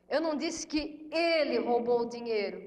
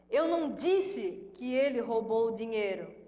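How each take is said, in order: First: The stress is on "ele". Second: The stress is on "Eu".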